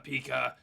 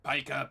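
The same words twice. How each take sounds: First: "pica" with an ee in the first syllable; alternate pronunciation. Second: "Pica" with a long eye in the first syllable; alternate pronunciation. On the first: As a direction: say "pica" as PEE-kuh. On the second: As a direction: say "Pica" as PIE-kuh. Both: Shown as a demonstration. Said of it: "I always thought that was spelled pica".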